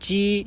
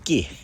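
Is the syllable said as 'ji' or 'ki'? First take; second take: ji; ki. First: The syllable begins with a 'j' sound. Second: The syllable begins with a 'k' sound. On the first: This is the standard Mandarin reading. "표준어로는 지 이렇게 읽어야 되는데" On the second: This is the local dialect reading. "끼라고 읽어요"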